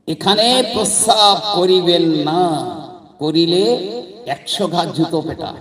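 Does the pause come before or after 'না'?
after. The pause comes after 'না'.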